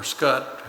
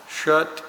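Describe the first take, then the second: First: Scutt with a hard SK at the start; alternative pronunciation attempt. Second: Schutt with an SH sound at the start; first pronunciation attempt. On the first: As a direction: say Scutt opening on "sk", not "sh". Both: Real, not acted. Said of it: "however you pronounce that".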